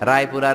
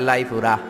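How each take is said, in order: First: The word begins with an R sound. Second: The word begins with an L sound.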